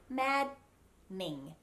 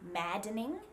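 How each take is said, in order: First: The D is silent, with the middle syllable reduced. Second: The D is clearly released with an extra syllable. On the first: The speaker calls it right. "we say maddening. Just two syllables" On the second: The speaker calls it wrong. "We don't say maddening"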